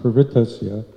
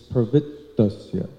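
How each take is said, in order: First: The t is short with no pause. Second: The t is doubled with a slight pause. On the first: The speaker calls it wrong. "it's not pravrittasya" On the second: The speaker calls it right. "both T's"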